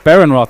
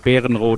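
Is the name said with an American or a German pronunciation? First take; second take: American; German. First: The name is said with American English sounds. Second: The name is said with German sounds. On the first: "the American English way" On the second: "in German"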